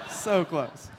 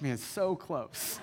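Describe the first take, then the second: First: A louder, higher second go at it; louder mock despair. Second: Slow, laughing letdown; laughing sigh. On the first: Pastor retelling the near miss to the church, loud and playful. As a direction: punch it up as playful exasperation. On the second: Retold or imitated. Pastor retelling the near miss to the church, slow and laughing. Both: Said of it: "We're like".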